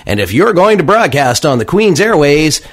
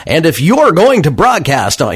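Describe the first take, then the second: First: High, loud radio announcer voice. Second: Said in the usual way. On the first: Shown as a demonstration. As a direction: put on the smooth on-air voice. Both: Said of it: "here, I'll slip my radio voice on".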